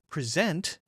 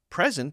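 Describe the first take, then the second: First: The stress is on the second syllable. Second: The stress is on the first syllable. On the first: It is used as a verb, to show. "present if it's a verb" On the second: It is used as a noun, a gift. "present if it's a noun"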